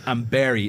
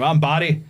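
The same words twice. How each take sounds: First: Barry in a put-on accent, like "Berry". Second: Said in the usual way. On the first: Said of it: "he just said it in an accent". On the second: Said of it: "then he just said it in an accent".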